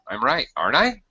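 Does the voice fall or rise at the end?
rise. The voice rises at the end. The speaker is not sure. "You could use rising intonation. You could be not sure"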